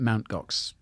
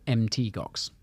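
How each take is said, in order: First: The first part is said as the word mount. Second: The first part is spelled out as letters. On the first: This is how everyone actually says it. "no one ever does. it's been Mount Gox" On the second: This is the intended pronunciation. "you're supposed to pronounce it M T Gox"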